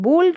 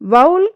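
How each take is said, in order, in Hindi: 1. यह स्वर 'go' में 'oh' जैसा सुनाई देता है। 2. यह स्वर 'cow' में 'ow' जैसा सुनाई देता है। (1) "वो राइट प्रोनाउंसिएशन है" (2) "ये हमारा रॉन्ग प्रोनाउंसिएशन है"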